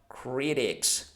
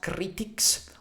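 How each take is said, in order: First: The middle T is a soft, light sound. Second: The middle T is a crisp, hard sound. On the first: The speaker calls it right. "but critics. It's softer" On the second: The speaker calls it wrong. "So not critics"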